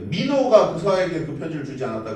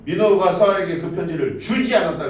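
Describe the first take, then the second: First: The stress falls on the word 민호가. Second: The stress falls on the word 주지. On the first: It was this particular person who did not give the letter. "누군가 편지를 주지 않긴 했는데 민호가 안 준 거고" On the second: Something was done with the letter, but it was not given. "그 편지를 읽기는 했는데 뭔가 주진 않은 거"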